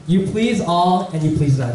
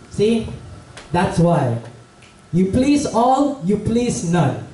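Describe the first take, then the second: First: Said in the usual way. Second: Slow, higher-pitched grandmotherly moral; lola. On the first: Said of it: "And that's what he said". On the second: Acted. Lola walking behind father and son, slow knowing reproof. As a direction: wise old granny spelling it out, pitch up on "all", down on "none". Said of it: "behind them the whole time was a lola".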